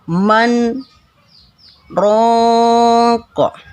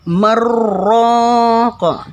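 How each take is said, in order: First: A brief break separates the two words. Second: The two words run together without a break. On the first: The speaker calls it right. "Harus diputus, harus dibaca ishar" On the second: The speaker calls it wrong.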